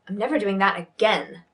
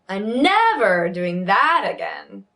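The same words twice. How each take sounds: First: The pitch rises slightly on the stressed word. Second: The pitch jumps far too high on the stressed word.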